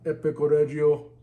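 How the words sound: It is said in a Terminator-like voice.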